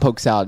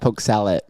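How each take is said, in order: First: The second word is pronounced like salad. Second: The second word is pronounced like sallet. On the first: The speaker calls it wrong. "it's not poke salad" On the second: The speaker calls it right. "It's poke salad. ... S A L E T T"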